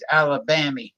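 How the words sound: Alabama is said in an old-movie style. "they used to say in the movies Alabama"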